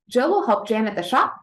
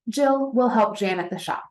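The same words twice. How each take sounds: First: It is said as a question, rising at the end. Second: It is said as a statement, falling at the end. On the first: It asks whether something will happen. "When we're speaking it as a question" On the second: It tells that something will happen. "when we are saying it as a statement"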